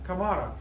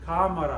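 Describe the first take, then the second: First: The stress is on the second syllable. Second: The stress is on the first syllable. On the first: The speaker calls it wrong. "it should be pronounced like Kamara" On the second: The speaker calls it right. "But no, it's cámara"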